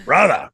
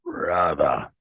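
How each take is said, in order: First: Higher, louder, short "bruthah"; Kevin Sullivan. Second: Low, drawn-out "bruthah" with the R dropped; Kevin Sullivan. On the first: Guest showing another of Kevin's moods, louder high impression. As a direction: punch the catchword out high with no final R. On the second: Guest imitating Kevin's catchword, low drawn-out impression. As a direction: sink deep into the catchword. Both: Retold or imitated. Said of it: "the way he says".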